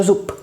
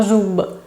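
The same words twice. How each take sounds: First: "zup" ending in voiceless p; final devoicing. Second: "zub" with a buzzing voiced b at the end; voiced final consonant. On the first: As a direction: close "zup" on an unvoiced p. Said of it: "como si se escribiera con P". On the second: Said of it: "no zub, sino zup". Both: Shown as a demonstration.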